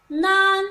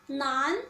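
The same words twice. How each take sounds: First: 难 held loud on one level pitch; drawn-out, level-pitched 难; high level tone. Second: 难 starting low and rising; second tone. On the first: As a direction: say 难 loudly with no rise or fall. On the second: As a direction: let 难 climb like a question. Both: Shown as a demonstration. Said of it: "the second tone".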